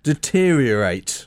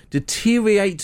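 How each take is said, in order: First: "deteriorate" slow, with every syllable sounded; careful pronunciation. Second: "deteriorate" with a syllable slurred away; mispronounced deteriorate. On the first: Shown as a demonstration. Newsreader corrects himself to co-host, careful "deteriorate". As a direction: give "deteriorate" its full "de-teer-i-o-rate". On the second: Real, not acted. Newsreader stumbles over "deteriorate", slurred middle. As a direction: swallow the middle of "deteriorate", like "de-teer-i-ate". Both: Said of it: "not what you said".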